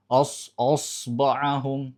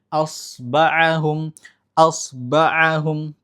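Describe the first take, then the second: First: Osba'ahum with the opening o darkened and heavy; thick hamzah. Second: Osba'ahum slow, opening a clear and light; clear open hamzah. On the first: Teacher showing the wrong thickened hamzah in osba'ahum. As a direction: start osba'ahum with a thick, dark o. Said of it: "Sebelum masuk so udah tebal duluan". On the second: Teacher demonstrating the correct light osba'ahum. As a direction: keep the first vowel of osba'ahum open and thin. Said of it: "Harus dibaca jelas, terbuka, dan tidak tebal". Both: Shown as a demonstration.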